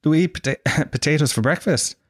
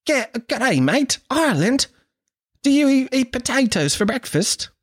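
First: Amused disbelief. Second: Very high, exaggerated Australian girl; Australian accent. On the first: Retold or imitated. Irishman thinking they are teasing him, laughing disbelief. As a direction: own voice, laughing through the question. His own baffled laughing reply. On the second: Australian girl quizzing an Irishman on potatoes, high mock Australian accent. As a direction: squeal it in a broad mock Aussie accent. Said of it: "This is my Australian accent".

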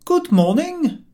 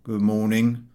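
First: High, slow, courtly good morning; overly genteel greeting; polite greeting. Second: A surly half-heard mumble; gruff shopkeeper grunt; grunted greeting. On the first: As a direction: raise your hat and sing it out politely. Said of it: "George raised his hat and said". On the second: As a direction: grunt it without looking up. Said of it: "He grunted something". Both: A narrator's reading.

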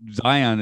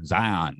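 First: Said in the usual way. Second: Zion with a light Southern drawl; a touch of Southern accent on Zion; slight Southern accent. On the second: Real, not acted. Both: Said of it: "there came a bit of my old Southern accent".

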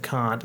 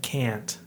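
First: "can't" said with a long open ah, like cahnt; can't with broad ah. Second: "can't" said with a short flat a, rhyming with ant. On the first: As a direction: say "can't" as cahnt, the posh British way. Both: Shown as a demonstration. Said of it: "it sounds stupid".

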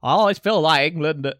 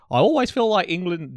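First: Louder bad Scottish accent; hammy Scottish pundit impression. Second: Bad Scottish accent attempt; mock Scottish pundit voice. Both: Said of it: "this is my Scottish accent, it's so bad".

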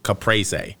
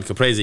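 First: "caprese" in plain English sounds, no Italian accent; American pronunciation. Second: "caprese" with the Italian accent on it; accented pronunciation. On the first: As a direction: Americanise "caprese", keeping the last syllable. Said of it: "the American version of how to say". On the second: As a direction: give "caprese" its Italian vowels. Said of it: "didn't throw the accent on". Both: Shown as a demonstration.

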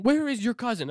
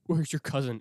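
First: Higher and louder, a panicked demand; frantic grandma. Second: Said in the usual way. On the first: Retold or imitated. Grandma's freaking out.

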